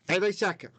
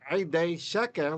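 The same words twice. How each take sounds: First: Only one accent covers both words. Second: Each word carries its own accent. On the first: This is the ancient reading. "one accent on those two words" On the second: This is the modern reading. "like we read it today"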